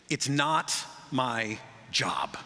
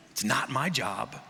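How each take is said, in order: First: Slow, dragged-out "It's not my job"; lazy shrugging refusal; sullen refusal. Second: Slow, sulky "It's not my job" ending in a rise; mock teenage refusal; sullen refusal. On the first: Retold or imitated. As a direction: drawl it like a sulky worker. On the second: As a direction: whine it like a bored teen. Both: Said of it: "when people say that".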